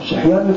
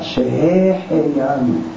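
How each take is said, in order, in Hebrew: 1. ההברה האמצעית נבלעת ונשמטת. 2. כל ההברות נהגות במלואן. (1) "שחיינו זה לא נקרא ברכה" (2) "אתה משתדל להגיד מילים שלמות"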